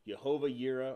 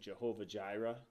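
First: The second word begins with a y sound. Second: The second word begins with a j sound.

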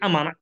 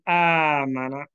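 First: The alif vowel is said short. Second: The alif vowel is stretched long. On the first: The speaker calls it wrong. "don't say amana" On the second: The speaker calls it right. "only add meme and noon, say amana"

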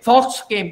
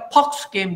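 First: Fox begins with an f sound. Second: Fox begins with a p sound. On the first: The speaker calls it right. "They don't say" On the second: The speaker calls it wrong. "They say"

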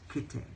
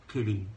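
First: The middle consonant sounds like a crisp T. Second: The middle consonant sounds like a soft D. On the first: "you say kitte" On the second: "instead of saying, pronounce it like D, like say kitty"

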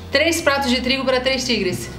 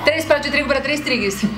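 First: The phrase is said at a normal pace. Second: The phrase is said at a fast pace.

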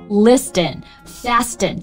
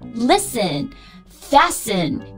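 First: The t sound is pronounced in both words. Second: The t sound is silent in both words. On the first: The speaker calls it wrong. "不要读成Listen Fasten 这就不对" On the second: The speaker calls it right. "T 都是不发音的"

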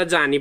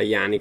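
First: The middle consonant sounds like English 'j'. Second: The middle consonant sounds like English 'y'. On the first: This is how the speaker has always said it. "Io l'ho sempre pronunciato a Gianni" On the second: This follows how the name is written. "per come è scritto potrebbe essere tranquillamente Ayani"

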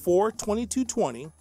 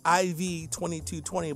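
First: The first part is read as a number. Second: The first part is read as letters. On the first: The speaker calls it right. "I believe it should be pronounced as the Roman numerals are saying" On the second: The speaker calls it wrong. "I could say IV-2220, but it just doesn't sound right"

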